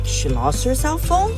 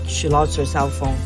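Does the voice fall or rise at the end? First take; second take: rise; fall. First: The pitch rises high at the end. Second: The pitch falls at the end. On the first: "a high rising tone" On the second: "a falling tone"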